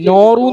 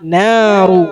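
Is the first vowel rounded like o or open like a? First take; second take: rounded; open. First: The first vowel sounds rounded, like o. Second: The first vowel sounds open, like a. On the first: The speaker calls it wrong. "നോറു എന്ന് പറയരുത്" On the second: The speaker calls it right. "നോ അല്ല നാ"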